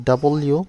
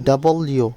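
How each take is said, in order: Both takes have the same delivery.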